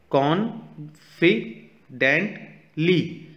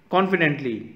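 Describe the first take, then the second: First: confidently in four slow, separate beats, higher pitched; syllable by syllable. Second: Said in the usual way. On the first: Shown as a demonstration. Teacher showing kids four syllables, confidently split syllable by syllable. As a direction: sound out confidently as कॉन, फि, dent, ली with pauses. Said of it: "यहाँ four syllables use किए गए हैं". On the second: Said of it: "यहाँ four syllables".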